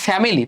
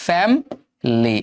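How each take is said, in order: First: The middle vowel is fully pronounced, three syllables. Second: The middle vowel is dropped, two syllables. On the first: The speaker calls it wrong. "আমরা বলি ফ্যামিলি" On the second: The speaker calls it right. "এটা হচ্ছে ফ্যামলি, এটা হচ্ছে হস চিহ্ন, মানে এখানে থামতে হবে"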